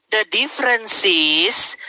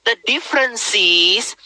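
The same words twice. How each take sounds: The two takes are said the same way.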